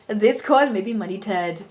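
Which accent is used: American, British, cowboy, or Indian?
Indian. It is spoken in an Indian accent. "the Indian accent"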